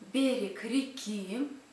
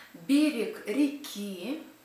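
No difference in how they are said.

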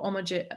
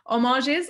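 First: The word is pronounced quickly, without care. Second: The word is pronounced slowly and with care. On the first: The speaker calls it wrong. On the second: The speaker calls it right.

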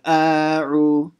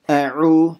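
First: The first vowel is stretched long. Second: The first vowel is kept short. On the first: The speaker calls it wrong. "then you're stretching the a in the beginning, saying a'u. That's a mistake" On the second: The speaker calls it right. "A'u, say that"

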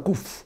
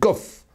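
First: The vowel is a long 'oo' sound. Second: The vowel is a short 'o' sound. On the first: The speaker calls it wrong. "on ne dit pas kouf" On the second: The speaker calls it right. "on dit kof, en bon hébreu"

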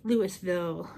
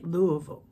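First: It has another outsider pronunciation. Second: It has the locals' own pronunciation. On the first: This is how people from elsewhere say it. "People from other places call it Louisville or Louisville" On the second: This is how people from the city say it. "But we say Louisville"

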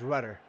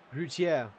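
First: The name is said with an American pronunciation. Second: The name is said with a non-American pronunciation. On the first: The speaker calls it wrong. "That sounds a bit foolish to say. That sounds too American" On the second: The speaker calls it right. "So I'm going to go with Routier"

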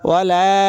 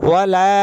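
The two takes are said the same way.

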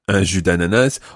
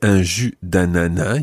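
First: The final S of ananas is pronounced. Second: The final S of ananas is silent.

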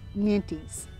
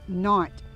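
First: The final S is pronounced. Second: The final S is silent. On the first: This is how many people say it in the U.S. "many people in the U.S. pronounce it Nantes" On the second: This is how it is said in France. "The S is silent, so over there they pronounce this carrot Nantes"

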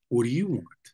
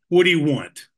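First: It is said in a questioning tone. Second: It is said in an angry tone.

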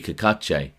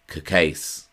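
First: The surname is said with Italian pronunciation. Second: The surname is said with American pronunciation. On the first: This is the traditional form of the name. "The traditional Italian pronunciation of his surname would be Cacace" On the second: This is how the family says the name now. "the surname has been Americanized and is now pronounced Cacace"

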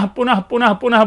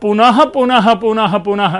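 First: Each repetition is said on the same flat pitch. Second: Each repetition is said with a different pitch tone. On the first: Every repetition carries the same meaning. "उसका एक ही अर्थ होगा" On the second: Each repetition carries a different meaning. "ऐसे अगर आप सुर बना करके बोलेंगे"

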